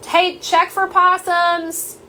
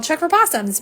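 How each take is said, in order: First: High, slow call to the house; drawn-out shout down the hall; real yell. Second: A mild mock yell, a bit higher; half-hearted echo of the shout; retold yell. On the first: Real, not acted. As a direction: yell it out to someone in another room. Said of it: "I'm gonna yell for a second". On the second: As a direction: re-enact the call lightly, half-hearted. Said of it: "so that's why I yelled".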